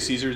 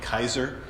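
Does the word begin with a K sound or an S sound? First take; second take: S sound; K sound. First: The word begins with a soft S sound. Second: The word begins with a hard K sound. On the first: This is the usual modern pronunciation. "we would say Caesar" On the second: This is how the ancient inscription reads. "the way you would pronounce it here is more like Kaiser"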